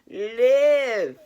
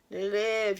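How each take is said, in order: First: Live belted out loud and high, one long falling word; emphatic shout. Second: Said in the usual way. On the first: Real, not acted. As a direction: shout the command to wake them up. Urging listeners to live fully.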